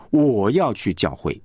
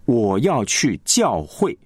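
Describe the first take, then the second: First: Slow, 教会 dropped and unstressed; 吞掉教会; 教会 swallowed. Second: Slow, weight on 教会; 重音在教会; stress on 教会. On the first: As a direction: let 教会 fade away unstressed. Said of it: "你不会把这个教会给吞掉了". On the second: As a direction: press 教会 clearly. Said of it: "主要的是要强调这个教会". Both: Shown as a demonstration.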